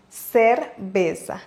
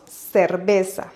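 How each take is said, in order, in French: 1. Le c se prononce comme s. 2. Le c se prononce comme s.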